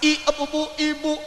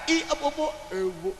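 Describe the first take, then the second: First: Each syllable is articulated clearly and distinctly. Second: The syllables are run together and unclear. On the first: This is how young people of the old days read. "Kalau zaman dulu belajar membaca artikulasinya jelas" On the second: This is how young people nowadays talk. "Anak muda sekarang beda"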